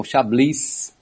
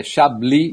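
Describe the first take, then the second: First: Chablis with the final s sounded; wrong pronunciation. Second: Chablis with silent s, "cha-bli"; correct French pronunciation. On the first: Expert shows listeners the mistake, sounding Chablis' s. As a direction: say Chablis slowly as "cha-blis". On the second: Expert teaches listeners, Chablis without the s. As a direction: end Chablis on a stressed "bli". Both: Shown as a demonstration. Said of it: "O S no final".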